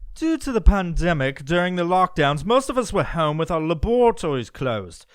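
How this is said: It is read in a British accent.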